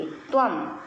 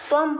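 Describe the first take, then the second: First: त्वम repeated alone, ending on a clear m; त्वम once more with a half m ending; said as tvam. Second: त्वम with the anusvara read as a half m, tvam; त्वम firmly ending in half m. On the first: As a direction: model त्वम slowly with a closed m. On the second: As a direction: say त्वम ending on a closed m sound, not a nasal vowel. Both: Shown as a demonstration. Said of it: "तो यहाँ पर हम इसको".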